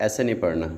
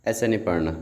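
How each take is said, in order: No difference in how they are said.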